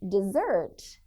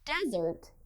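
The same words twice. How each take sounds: First: The stress is on the second syllable. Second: The stress is on the first syllable. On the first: It means to abandon someone. "desert is a verb meaning to leave or abandon someone or something" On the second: It names a dry region. "the word desert is a noun meaning a dry climate"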